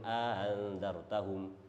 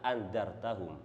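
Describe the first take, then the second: First: The second glottal stop is softened into a breathy glide. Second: Both glottal stops are pronounced fully. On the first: Other reciters read it this way. "Ada yang baca dengan aha" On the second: This is one recognized way of reciting it. "ditahqiq hamzanya aa"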